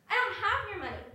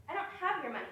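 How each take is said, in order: First: Much higher and louder, fed up; exasperated denial. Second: Said in the usual way. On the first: Acted. Friend losing patience at the accusation, louder. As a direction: throw the denial back hard. Repeated denial in a rising argument.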